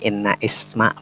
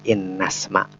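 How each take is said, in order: First: The vowel starting isma is pronounced separately. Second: The words run together, dropping that vowel. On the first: The speaker calls it wrong. "Bukan inna isma" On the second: The speaker calls it right. "tapi innasma"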